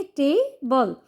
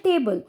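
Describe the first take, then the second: First: table broken into two parts, टे and बल, with a gap between; split into syllables. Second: Said in the usual way. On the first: Shown as a demonstration. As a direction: say table one syllable at a time. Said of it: "दो भागों में break करेंगे". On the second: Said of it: "तो दो भागों में break करेंगे".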